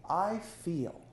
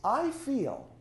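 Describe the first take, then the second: First: Said in the usual way. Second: "I feel" lifted high, both words leaned on; emphatic I feel. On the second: Shown as a demonstration. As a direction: sell "I feel" as the key phrase, raised up. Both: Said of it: "precede the feeling with "I feel".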